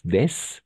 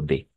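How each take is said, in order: First: The final s is pronounced. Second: The final s is silent. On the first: The speaker calls it wrong. "no es des" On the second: The speaker calls it right. "sino solo de"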